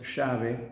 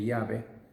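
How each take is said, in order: First: It is said in the porteño Buenos Aires accent. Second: It is said in a non-porteño accent.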